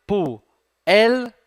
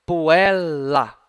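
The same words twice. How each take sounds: First: PUELLA as Pu, el, la, with pauses; split into syllables. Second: PUELLA said connected, both Ls held; double L. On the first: Teacher parting the double letter, split into syllables. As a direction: break Puella between the two Ls, higher and louder. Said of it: "L numa sílaba". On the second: Teacher showing the doubled letter, held double L. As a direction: say puella in one run, lingering on the Ls. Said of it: "o outro L na outra sílaba". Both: Shown as a demonstration.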